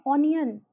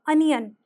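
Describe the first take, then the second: First: ओनियन opening on a rounded "oh", oh-nee-yun; common wrong pronunciation. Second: अनियन with a short "uh" first sound, ah-nee-yun; correct pronunciation. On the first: Teacher imitates learners' usual mistake, ओनियन with an "oh" start. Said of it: "ज़्यादातर लोग बोलते हैं ओनियन". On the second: Teacher corrects learners, अनियन with an "uh" opening. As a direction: say अनियन starting on a clear "uh", not "oh". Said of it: "यहाँ पे अ का sound आएगा". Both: Shown as a demonstration.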